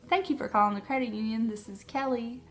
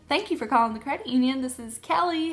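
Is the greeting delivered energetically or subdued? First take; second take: subdued; energetic. First: It is said smaller, with less energy. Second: It is said with more energy and oomph. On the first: "Sometimes it's smaller" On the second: "Let me see if I can do my phone voice"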